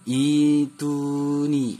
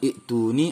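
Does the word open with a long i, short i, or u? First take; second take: long i; short i. First: The word opens with a long i sound. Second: The word opens with a short i sound. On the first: The speaker calls it right. "yang benarnya adalah dibaca ituni" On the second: The speaker calls it wrong. "bukan ituni"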